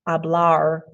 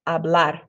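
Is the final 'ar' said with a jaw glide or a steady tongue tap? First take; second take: jaw glide; steady tap. First: The jaw moves during the vowel and final R. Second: The jaw stays still; the tongue taps once. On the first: The speaker calls it wrong. "Don't move that jaw so much. Don't say hablar" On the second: The speaker calls it right. "say hablar"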